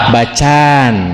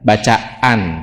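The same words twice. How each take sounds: First: The a sounds merge into one long vowel. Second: A glottal catch separates the two a sounds. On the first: "Kalau pakai alif jadi bacaan" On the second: "tahsian itu pakai hamzah"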